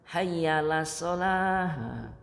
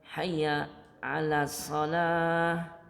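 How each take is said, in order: First: The 'ala' syllable is swallowed into 'hayyalah'. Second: The 'ala' syllable is clearly pronounced. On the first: The speaker calls it wrong. "ini a-nya terkadang wallahualam ya nggak kebaca" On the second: The speaker calls it right. "Ada huruf ala ya"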